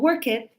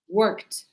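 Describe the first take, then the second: First: The ending is an extra syllable. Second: The ending is a short t sound. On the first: The speaker calls it wrong. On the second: The speaker calls it right. "ed, is pronounced t"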